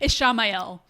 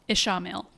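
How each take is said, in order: First: The name ends like the end of 'Raphael'. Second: The name ends with a short 'mil' sound. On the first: The speaker calls it right. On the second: The speaker calls it wrong.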